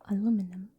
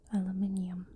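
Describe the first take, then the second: First: It has four syllables, ending in -minum. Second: It has five syllables, ending in -minium. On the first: "The American way?" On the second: "Or the British one?"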